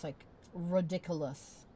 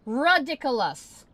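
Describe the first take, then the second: First: Said in the usual way. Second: Loud, slow, drawn-out shout of disgust; Ridiculous yelled loud and slow; furious yell. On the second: Real, not acted. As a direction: blow up at the screen with the word. Frustrated streamer yelling at site.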